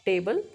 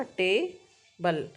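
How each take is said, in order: First: Said in the usual way. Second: table slowed into टे, pause, बल; two-beat syllable split. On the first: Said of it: "उन्होंने example दिया है". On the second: Shown as a demonstration. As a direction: separate both syllables of table clearly. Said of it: "ताली भी बजा के".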